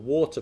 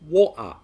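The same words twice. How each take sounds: First: The middle consonant is a clear T. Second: The middle consonant is a glottal stop.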